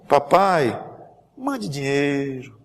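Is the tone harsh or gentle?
gentle. It is read in a soft, pleading tone.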